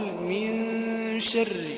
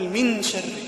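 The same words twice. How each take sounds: First: The n sound is hidden and nasalized before sh. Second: The n sound is pronounced clearly before sh. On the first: The speaker calls it right. "والنون هنا مخفية" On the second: The speaker calls it wrong. "يظهر النون هنا"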